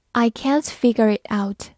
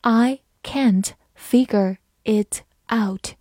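First: Said in the usual way. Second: Slow, careful word-by-word read. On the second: Shown as a demonstration. Teacher reading slowly for students. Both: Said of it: "慢慢来读".

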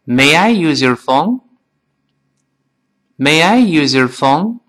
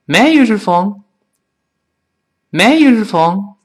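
First: Slow and even, word by word; slow model for repeating; slow reading. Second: Quick, words run together; quick linked "May I use your phone"; faster. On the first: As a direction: read it slowly with the class. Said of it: "跟老师慢慢再读一遍". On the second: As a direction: rush through it casually. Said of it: "再快点". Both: Shown as a demonstration.

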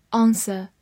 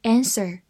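First: "answer" as AHN-suh, without final R; British pronunciation. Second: "Answer" with wide-open A as in cat and curled final R; American pronunciation. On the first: Teacher models the word "answer" for learners, British pronunciation. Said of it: "美式发音". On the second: Teacher shows learners the alternative "Answer", American pronunciation. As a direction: say "Answer" as AN-ser, American style. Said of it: "字母A发大口的a". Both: Shown as a demonstration.

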